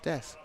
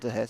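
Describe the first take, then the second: First: The name is said with a silent H. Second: The name is said with a sounded H. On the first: The speaker calls it right. "You don't pronounce the H in French. So it's Des" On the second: The speaker calls it wrong. "It's not De Hess"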